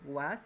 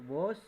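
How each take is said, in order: First: "was" said with an open a vowel, "was"; "was" pronunciation. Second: "was" said with an o vowel, "wos"; "wos" pronunciation. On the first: Teacher offering the other form to students, "was" with open a. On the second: Teacher naming the auxiliary for students, "was" as "wos". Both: Shown as a demonstration. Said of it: "Se puede pronunciar was o was".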